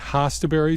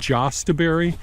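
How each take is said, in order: First: The word begins with an H sound. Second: The word begins with a J sound. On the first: "I pronounce it hostaberry" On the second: "Some people pronounce them as jostaberry"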